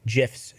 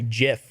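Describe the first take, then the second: First: "gifs" with a hard g, as in "gift". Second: "jif" with a soft j sound, like the peanut butter. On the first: His usual way, a hard g on "gifs". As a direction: say "gifs" with the hard g, to needle her partner. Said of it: "I have to say gifs when you're in the room". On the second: To his partner, a teasing soft-g "jif". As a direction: say "jif" with a soft g, conceding the point. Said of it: "I can say". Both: Shown as a demonstration.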